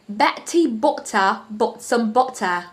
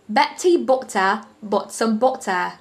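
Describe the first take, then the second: First: It is spoken in a British accent. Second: The same.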